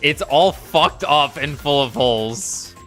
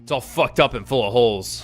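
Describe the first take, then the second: First: The line is spoken clearly and distinctly. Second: The line is mumbled quietly and indistinctly.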